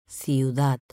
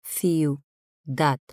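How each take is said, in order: First: Said in the usual way. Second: "Ciudad" split as Ciu, dad, pause between; syllable by syllable. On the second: Shown as a demonstration. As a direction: say "Ciudad" in two separate pieces, Ciu... dad. ("Ciudad" separado en sílabas: ciu, dad) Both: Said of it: "Separación de sílabas".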